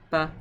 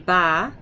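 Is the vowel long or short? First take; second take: short; long. First: The vowel is clipped short. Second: The vowel is held long and open. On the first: "it kind of snuffs it and shortens it" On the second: "if it was like this, it would be ba"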